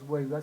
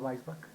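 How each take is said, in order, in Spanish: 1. El nombre se pronuncia con sonidos españoles. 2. El nombre se pronuncia con sonidos alemanes. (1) "no es Weisbach" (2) "sino Weisbach, que es en el idioma alemán"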